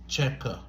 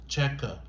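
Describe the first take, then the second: Both takes have the same delivery.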